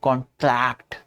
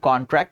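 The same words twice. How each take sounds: First: The stress is on the second syllable. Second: The stress is on the first syllable. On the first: To shrink. "Stress tract पे डालते हैं।" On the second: An agreement that is signed. "Tract पे stress नहीं रहेगा"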